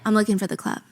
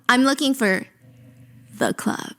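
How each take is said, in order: First: The phrase is said plainly, without special emphasis. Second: The word "the" is strongly emphasized. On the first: It is just some ordinary club. The speaker calls it wrong. "You can't say" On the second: It is the one exclusive, famous club. The speaker calls it right. "You gotta say, ... It's that exclusive. The club"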